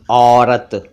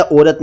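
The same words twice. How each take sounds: First: "औरत" with open au; correct au vowel. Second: "औरत" mispronounced "orat", closed o; wrong o vowel. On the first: Teacher corrects to औरत, au sound. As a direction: say "औरत" as "aw-rat". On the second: Teacher rejects mistaken औरत, o sound. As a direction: start "औरत" with "oh". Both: Shown as a demonstration. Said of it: "औजार या औरत नहीं".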